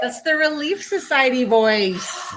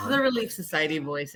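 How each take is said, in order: First: Higher, slow, sugary church-lady voice naming itself; Relief Society voice. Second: Said in the usual way. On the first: Shown as a demonstration. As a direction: say it in the sweet church voice.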